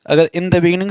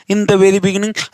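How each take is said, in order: First: Said in the usual way. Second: Very lifted and pressed; stress on very. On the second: Shown as a demonstration. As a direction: lean on the word very. (very पर ज़ोर) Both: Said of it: "यानी हम emphasise करें फिर से".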